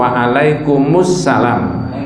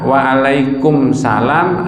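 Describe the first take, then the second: First: Alaikum is linked to salam with an added '-us'. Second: Alaikum runs straight into salam with no added vowel. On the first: The speaker calls it right. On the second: The speaker calls it wrong. "Yang betul a wa alaikum salam atau"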